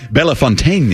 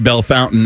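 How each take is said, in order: First: The name is said with a French pronunciation. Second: The name is said with an English pronunciation. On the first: "the real French pronunciation should be Bellefontaine" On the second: "in English you can say Belle Fountain"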